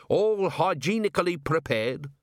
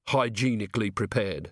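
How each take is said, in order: First: HYGIENICALLY PREPARED pitched high and rising; proud dwarf cook. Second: Said in the usual way. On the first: A narrator's reading. Cook boasts to the watchman of "hygienically prepared" food, high proud claim. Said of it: "said Gimlet". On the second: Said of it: "said Carrot".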